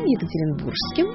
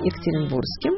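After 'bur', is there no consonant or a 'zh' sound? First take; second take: zh sound; no consonant. First: A 'zh' sound is heard between 'bur' and 'skim'. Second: No consonant is heard between 'bur' and 'skim'. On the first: "«г» меняется на «ж»" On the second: "в произношении соответствующий ей звук теряется"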